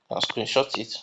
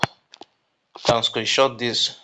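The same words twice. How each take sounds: First: Said in the usual way. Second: Drawn out slowly, leaning on can; slow down so they take note; "You can screenshot this" said slowly, stressing "can"; slow, emphatic. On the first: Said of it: "I want you guys to take note of this". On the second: Real, not acted. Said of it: "It's very important for you to take note of".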